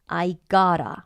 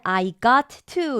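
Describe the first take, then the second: First: The t sounds blend into one 'gotta'. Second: Both t sounds are said separately. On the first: The speaker calls it right. "쉽게 발음하려고 이렇게 합니다" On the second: The speaker calls it wrong. "우리 말할 때는 I got to 이렇게 안 해요"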